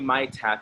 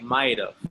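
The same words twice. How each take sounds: First: The two words are said fully and separately. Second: The two words are run together and reduced. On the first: The speaker calls it wrong. "you don't say might have" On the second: The speaker calls it right. "you say might have"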